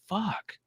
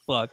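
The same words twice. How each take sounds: First: The word is said at a quiet volume. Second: The word is yelled at a very loud volume.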